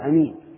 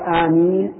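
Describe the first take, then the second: First: The first vowel is short and the m single. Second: The first vowel is long and the m single. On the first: The speaker calls it wrong. "ويجوز قص الهمزة فيقال أمين" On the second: The speaker calls it right. "ويقال آمين"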